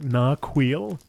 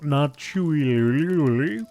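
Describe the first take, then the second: First: The middle consonant is a 'k' sound. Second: The middle consonant is a 'ch' sound. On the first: The speaker calls it right. "that's how you pronounce it" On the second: The speaker calls it wrong. "Not Narchuil"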